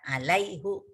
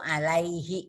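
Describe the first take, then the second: First: The word ends with a 'u' vowel. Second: The word ends with an 'i' vowel. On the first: The speaker calls it wrong. "Kan nggak enak ya" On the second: The speaker calls it right. "Yang enak itu alaihi"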